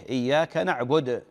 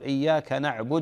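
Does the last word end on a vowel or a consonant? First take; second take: consonant; vowel. First: The last word ends on a bare consonant. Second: The last word ends on a u vowel. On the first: The reader stops after this phrase. "إذا وقف القارئ يسكن" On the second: The reader continues into the next phrase. "تصل القراءة، لابد أن تضم"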